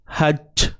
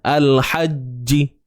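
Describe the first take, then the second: First: The final j ends without any added vowel. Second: The final j is followed by an i vowel. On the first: The speaker calls it right. "jangan bunyi c. Hajj" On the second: The speaker calls it wrong. "Baris bawah"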